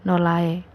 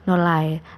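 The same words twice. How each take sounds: No difference in how they are said.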